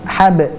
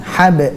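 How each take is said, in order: Both takes have the same delivery.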